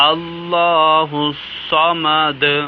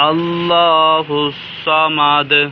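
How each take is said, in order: The two takes are said the same way.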